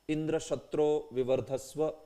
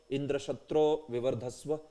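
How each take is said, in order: Both takes have the same delivery.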